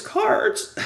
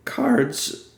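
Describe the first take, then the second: First: Cards! squeaked very high, breathy and cracked; strained cry of Cards! that breaks into air; voice gives out. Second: Cards jumps high and breaks; voice cracking. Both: Real, not acted. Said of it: "I'm losing my voice".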